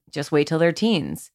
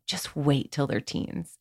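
First: A foreboding, knowing threat; ominous warning. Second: Slower and softer, full of happy anticipation; hopeful and tender. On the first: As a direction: say it like a dark warning about what's coming. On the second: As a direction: promise something wonderful ahead. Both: Shown as a demonstration. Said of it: "If we just change the tone of voice".

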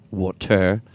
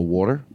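First: "Water" with a full "-tair" ending; odd "Water" pronunciation. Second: Said in the usual way. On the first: Shown as a demonstration. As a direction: say "Water" as "waw-tair", both syllables careful. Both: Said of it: "I wanna say water normal".

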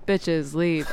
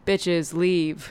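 First: Low deadpan, no inflection at all; monotone voice. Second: Low, inflectionless deadpan delivery; monotone voice. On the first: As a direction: drone it out, lower pitch. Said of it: "He doesn't say it with any inflection". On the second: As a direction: say it with zero inflection, lower. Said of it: "in a monotone voice". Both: Retold or imitated.

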